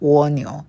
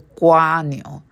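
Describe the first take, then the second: First: The first syllable is pronounced wo. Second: The first syllable is pronounced gua. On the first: This is the mainland China reading. "在中国那里读的是蜗牛" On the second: This is the Taiwan reading. "在台湾那里读的是瓜牛"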